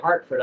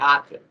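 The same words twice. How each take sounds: First: The r sound in the first syllable is pronounced. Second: The r sound in the first syllable is dropped. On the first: This is the way he did not talk. "I never used to say Hartford" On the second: This is the way he always talked. "I would always say Hartford"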